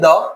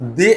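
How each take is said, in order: First: The word ends with a short 'uh' sound. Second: The word ends with an 'ee' sound. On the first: "এজন্য এটাকে আমরা কি উচ্চারণ করব, দ।" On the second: "আমরা উচ্চারণ করব দি"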